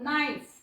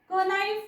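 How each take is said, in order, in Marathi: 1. शब्द n आवाजाने सुरू होतो, k नाही. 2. शब्द n च्या आधी k आवाजाने सुरू होतो.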